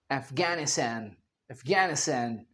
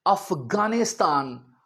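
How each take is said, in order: First: AFGHANISTAN as "æf-gæ-ni-stæn", low and soft; American pronunciation. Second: AFGHANISTAN as "af-gaa-ni-staan", slow; British-Indian pronunciation. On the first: Teacher showing Trump's version, low "Æfgænistæn" अफगानिस्तान. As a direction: say अफगानिस्तान with flat a's. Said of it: "तो वो अफगानिस्तान को अक्सर क्या बोलते". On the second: Teacher setting up the word, "Afgaanistaan" अफगानिस्तान. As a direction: say अफगानिस्तान with long aa's. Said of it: "Trump साहब ने बोलना हो". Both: Shown as a demonstration.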